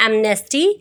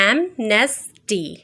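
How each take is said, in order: First: Said in the usual way. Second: "amnesty" slowly split into am-nes-ty; syllable by syllable. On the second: Shown as a demonstration. Teacher showing students the vowel sounds, "amnesty" in slow separate syllables. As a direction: break "amnesty" into separate syllables, a gap after each. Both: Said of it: "only one vowel sound".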